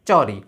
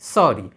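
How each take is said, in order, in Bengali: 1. এটি অল্পপ্রাণ ch ধ্বনি দিয়ে শুরু হয়। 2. এটি পরিষ্কার s ধ্বনি দিয়ে শুরু হয়। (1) "চ দিয়ে লিখি তাহলে হবে চরি" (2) "দন্ত স দিয়ে লিখলে হবে সরি"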